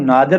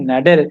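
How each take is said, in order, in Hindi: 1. यह उर्दू व्यक्तिगत नाम की तरह बोला जाता है। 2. यह अंग्रेज़ी शब्द की तरह बोला जाता है। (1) "इसको नादिर ना समझ लीजिएगा, जो पाकिस्तान में नाम भी होता है लोगों का" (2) "नादिर इसको पढ़ते हैं इंग्लिश में"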